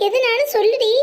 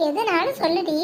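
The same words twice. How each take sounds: First: Raised, louder worried plea; alarmed urging. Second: Said in the usual way. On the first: Acted. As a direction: press her anxiously to speak, pitched high. Urges crying friend to speak. (பதட்டத்தோடு வற்புறுத்தி)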